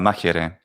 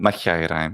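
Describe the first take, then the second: First: It uses the modern Greek pronunciation. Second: It uses a reconstructed ancient Greek pronunciation. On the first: "Modern Greek pronunciation is" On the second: "the Lucian pronunciation of ancient Greek"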